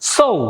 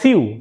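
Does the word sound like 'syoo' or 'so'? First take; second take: so; syoo. First: The word has an 'oh'-like vowel. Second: The word has a 'yoo'-like vowel. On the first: The speaker calls it right. "অথচ এটার শুদ্ধ উচ্চারণ হবে সৌ" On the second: The speaker calls it wrong. "এটাকে বলে সিউ"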